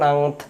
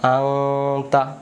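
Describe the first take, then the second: First: The word ends on the t consonant. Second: The word ends with a final a vowel. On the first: "এমন করে বলতে পারবেন" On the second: "তাও বলতে পারবেন"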